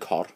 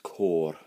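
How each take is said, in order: First: The vowel is short and clipped. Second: The vowel is long and drawn out. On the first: The speaker calls it wrong. "if without the torbach" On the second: The speaker calls it right. "it's extending the O"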